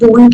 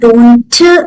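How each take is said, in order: First: The final t is dropped. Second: The final t is clearly pronounced. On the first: The speaker calls it right. "हम ठीक को बहुत ज्यादा pronounce ना करें" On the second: The speaker calls it wrong. "अगर हम ऐसे बोलेंगे तो ये बहुत ज्यादा फ्लुएंसी नहीं लाएगा"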